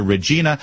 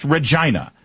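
First: Said in the usual way. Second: Regina said "reh-JYE-nah"; alternative pronunciation. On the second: Shown as a demonstration. Host questions the witness's name, Regina rhyming with "China". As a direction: say Regina with a long "eye" in the middle. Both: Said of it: "or is it pronounced Regina".

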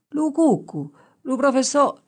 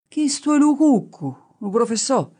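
First: Put-on high, eager dialect voice of a young shepherd; rustic shepherd answering. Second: Higher and louder rustic dialect answer; insistent shepherd. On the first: Young shepherd answering the professor, high and eager. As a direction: blurt it out like a naive country boy. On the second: Acted. Shepherd repeating his answer to the professor, louder and insistent. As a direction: insist on the same wrong answer, bold and loud.

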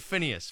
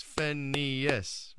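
First: Said in the usual way. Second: "Phineas" split into three distinct beats; broken into syllables. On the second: Shown as a demonstration. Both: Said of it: "three syllables".

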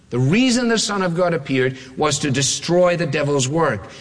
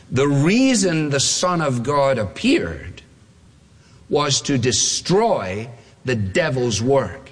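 First: Said in the usual way. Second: Slow quoted reading. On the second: Shown as a demonstration. Preacher reading his text slowly to the congregation. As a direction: read the verse slowly and deliberately. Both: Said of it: "Now here comes our quote".

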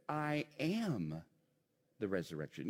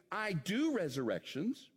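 First: "am" held, then a pause and a low finish; stress on AM. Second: "do" punched as the rejected wording; stress on DO. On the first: Preacher correcting to what Jesus said, stress on "am". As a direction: land on "am", then drop for "the resurrection". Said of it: "He said". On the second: Preacher saying what Jesus didn't say, stress on "do". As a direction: lift "do" to set up a correction. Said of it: "Jesus didn't say". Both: Shown as a demonstration.

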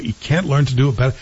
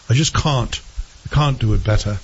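First: Said in the usual way. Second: Put-on English accent with broad "cahn't"; hammed-up English accent, dropped r's; mock English accent. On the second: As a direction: imitate a bad English accent. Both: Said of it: "Terrible English accent".

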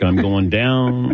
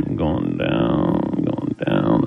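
First: Said in the usual way. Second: Much lower, very slow, drawn out; sinking faint. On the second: Pretend. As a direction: let the voice sink and drag like fainting. Mock fainting, voice sinking away.

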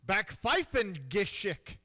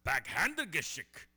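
First: Slow mock German on back Pfeifengeschick; German word again. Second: Backhandegeschick mangled on purpose; botched imitation. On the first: Shown as a demonstration. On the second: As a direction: butcher the German word. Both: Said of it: "Say it one more time".

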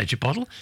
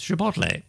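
First: Chipotle as chi-POT-el; former mispronunciation. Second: Chipotle as chi-POT-lay; correct pronunciation. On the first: Host admitting an old habit, chipotle as chi-POT-el. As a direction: say chipotle to rhyme with bottle. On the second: Host correcting themselves, chipotle ending in lay. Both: Shown as a demonstration. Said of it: "I used to say chipotle".

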